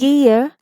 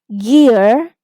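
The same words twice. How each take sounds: First: British accent, with no final R sound. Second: American accent, with the final R pronounced. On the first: "British English" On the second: "American English with the R sound at the end"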